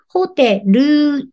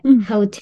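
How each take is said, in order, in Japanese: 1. 最後に「u」の母音が付きます。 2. 最後はLの音で終わります。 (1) "ホテルにうつけないで" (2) "L で終わり"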